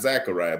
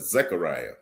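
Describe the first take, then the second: First: The first vowel sounds like 'ah'. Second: The first vowel sounds like 'eh'. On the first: The speaker calls it wrong. "not Zachariah" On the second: The speaker calls it right. "but Zechariah. Z E C H A R I A"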